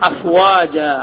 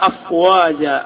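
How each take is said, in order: The two takes are said the same way.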